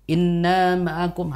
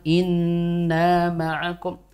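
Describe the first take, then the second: First: The nasal n sound is cut short. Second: The nasal n sound is held longer. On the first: The speaker calls it wrong. "gunnahnya tadi masih terlalu cepat" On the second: The speaker calls it right. "harusnya kan inna ma'akum"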